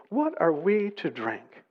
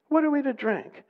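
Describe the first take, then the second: First: Said in the usual way. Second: Much higher, protesting question; grumbling complaint. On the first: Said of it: "the people grumbled against Moses". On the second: Acted. Thirsty people grumble against Moses, high-pitched complaint. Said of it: "They grumbled".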